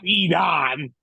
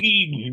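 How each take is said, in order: First: The last syllable sounds like 'don'. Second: The last syllable sounds like 'den'. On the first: The speaker calls it wrong. "not Edon" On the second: The speaker calls it right. "It's Eden"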